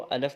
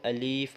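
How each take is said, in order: First: The second vowel is a short a. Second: The second vowel is a long ee. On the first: "कहीं इसको अलफ बोलते हैं" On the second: "कहीं इसको अलीफ बोलते हैं"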